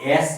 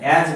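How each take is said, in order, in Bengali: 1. শব্দটি শেষ হয় একটি হিসহিসে s উচ্চারণে। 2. শব্দটি শেষ হয় একটি গুনগুনে z উচ্চারণে। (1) "অ্যাস কি না" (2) "অ্যাজ বলতে হবে"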